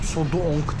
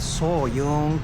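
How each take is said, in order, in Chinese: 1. 第二个音节以 'd' 音开头。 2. 第二个音节以 'y' 音开头。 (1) "komple yanlış söylemişim. Sodong değil" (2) "Sodong değil, Soyoung"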